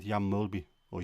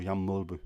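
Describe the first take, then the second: First: "Mulby" ending in a clear "ee" sound; anglicised name. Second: "Mulby" ending in a rounded "uh" sound; alternative name pronunciation. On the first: Naming the Liverpool signing, "Mulby" said MOL-bee. Says the name, then offers alternative. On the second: Correcting to the other pronunciation, "Mulby" said MOL-buh. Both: Shown as a demonstration.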